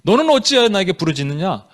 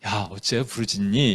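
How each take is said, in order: First: Firm, reproachful question; rebuking question. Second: Low, gentle, offhand question; soft, casual question. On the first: God questioning Moses for crying out, stern rebuke. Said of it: "책망이에요?". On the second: God asking Moses in the wrong nuance, soft low question. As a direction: ask it softly, without any reproach. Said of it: "이건 아예 느낌은 아니죠". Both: Shown as a demonstration.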